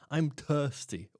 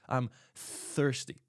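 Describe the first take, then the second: First: Thirsty begins without a th sound. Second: Thirsty begins with a th sound. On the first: The speaker calls it wrong. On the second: The speaker calls it right.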